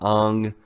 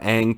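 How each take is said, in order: First: It is pronounced a more foreign, original-style way. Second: It is pronounced the usual anglicized way. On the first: This is how the live adaptation said it. "to Ong" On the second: This is the familiar way of saying it. "went from Ang"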